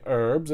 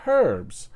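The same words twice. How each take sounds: First: "herbs" with a silent H; American pronunciation. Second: "herbs" with the H sounded; British pronunciation. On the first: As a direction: say "herbs" as "erbs". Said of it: "you say herbs". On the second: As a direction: breathe out a clear H at the start of "herbs". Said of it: "there's a freaking H in it". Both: Shown as a demonstration.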